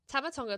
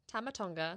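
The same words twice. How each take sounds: First: It is said fast. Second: It is said slowly.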